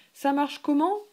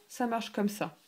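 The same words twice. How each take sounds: First: Comment lifted higher and louder; rising question. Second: Said in the usual way. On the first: Shown as a demonstration. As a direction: ask it with a climb on comment. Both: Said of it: "You say".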